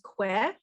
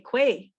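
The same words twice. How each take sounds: First: The vowel is a short 'eh' sound. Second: The vowel is a long 'ay' sound. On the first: "I would use it as an eh sound" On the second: "some people would might use it as an a sound"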